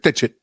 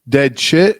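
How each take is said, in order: First: It is said flat and percussive, imitating the Australian. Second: It is said lively, in the speaker's own accent.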